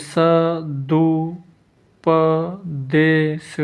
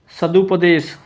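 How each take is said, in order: First: सदुपदेश very slowly, स-दु-प-दे-श; slow spelling-out of सदुपदेश with gaps; syllable-by-syllable dictation. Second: Said in the usual way. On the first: Shown as a demonstration. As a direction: draw out each syllable of सदुपदेश.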